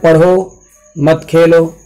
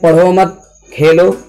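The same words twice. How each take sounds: First: A pause comes after the first word. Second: A pause comes after the second word. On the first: Study, and do not play. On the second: Do not study, and play.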